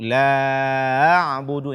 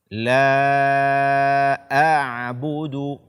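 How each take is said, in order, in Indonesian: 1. Hamzah setelah 'la' hampir tidak terdengar. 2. Hamzah setelah 'la' terdengar jelas. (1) "ini tidak dibenarkan" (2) "bacalah hamzah ini dengan jelas"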